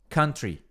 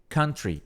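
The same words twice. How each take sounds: The two takes are said the same way.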